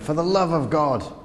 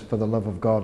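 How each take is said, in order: First: It is said as an exasperated exclamation. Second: It is said plainly, as a calm phrase.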